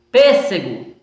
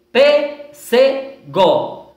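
First: Said in the usual way. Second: "pêssego" very slowly as pês, se, go; split into syllables. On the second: Shown as a demonstration. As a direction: pause after each syllable of "pêssego". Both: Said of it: "a quantidade de três sílabas".

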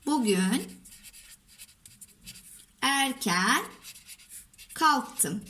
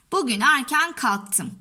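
First: Word by word, long pauses between; dictating while writing. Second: Said in the usual way. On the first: Shown as a demonstration. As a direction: dictate slowly as you write each word. Says words while writing them.

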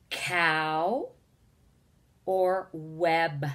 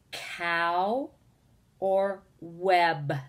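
The two takes are said the same way.

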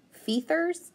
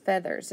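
First: "Feathers" with a long E, "fee-thers", rising as a question; wrong long E try. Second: "Feathers" with a short E, "feh-thers", falling; right short E. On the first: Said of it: "let's just start with long E". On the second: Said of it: "Let's try short E". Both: Shown as a demonstration.

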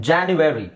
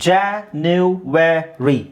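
First: Said in the usual way. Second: January drawn out very slowly, each syllable clear. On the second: Shown as a demonstration. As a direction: teach January slowly, one syllable at a time. (ಜನವರಿ ತುಂಬಾ ನಿಧಾನವಾಗಿ ಅಕ್ಷರಶಃ)

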